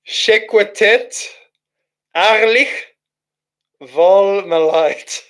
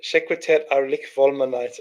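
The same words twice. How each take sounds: First: Drawn out and slow, higher and amused; stifling a laugh over nonsense words; amused slow reading. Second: Softer muttered reread of the strange words; low puzzled mumble over the odd words; quiet reread. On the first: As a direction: sound out each strange word slowly, baffled and amused. Reads gibberish chat message aloud. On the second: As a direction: murmur it again to yourself, puzzled. Rereads gibberish under breath. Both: Real, not acted.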